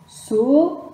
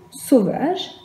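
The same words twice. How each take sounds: First: "sauvage" split into sau, va, ge; slow, separated syllables in "sauvage". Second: Said in the usual way. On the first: Shown as a demonstration. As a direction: sound out "sauvage" with a pause after each syllable. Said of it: "la première syllabe".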